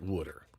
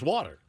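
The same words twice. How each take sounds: First: It is said in a Philadelphia accent. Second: It is said in a standard accent. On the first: This is how the locals say it. "He doesn't pronounce it water" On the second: This is how the outsider says it. "He says water"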